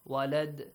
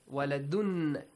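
First: The word ends without the -un ending. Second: The word ends with the full -un ending. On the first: The reading stops at this word. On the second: The reading continues without stopping.

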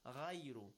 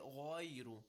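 First: The r is light and thin. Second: The r is heavy, with rounded mouth. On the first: The speaker calls it wrong. "if I recite it with تَرْقِيق, which is the wrong way in this case" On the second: The speaker calls it right. "If I recite it with تَفْخِيم"

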